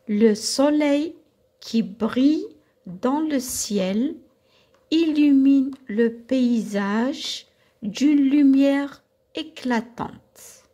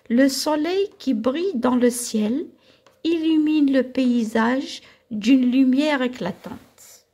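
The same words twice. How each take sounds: First: It is read at a slower pace. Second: It is read at a faster pace.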